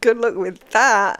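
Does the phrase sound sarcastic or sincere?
sarcastic. It is said in a sarcastic, dismissive tone. The speaker doubts it will work. The speaker calls it wrong. "I don't mean like good luck with that"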